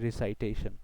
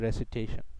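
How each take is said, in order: First: It begins 'ree-sigh', with a long 'eye' sound. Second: It begins 'reh-sih', with short vowels. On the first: The speaker calls it wrong. "আমরা সাধারণত উচ্চারণ করি রিসাইটেশন" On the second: The speaker calls it right. "Better উচ্চারণ হচ্ছে রেসিটেশন"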